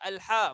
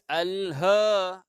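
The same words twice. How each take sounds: First: The h sound is harsh and strained. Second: The h sound is thick and deep. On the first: The speaker calls it wrong. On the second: The speaker calls it right. "bacaan yang tebal"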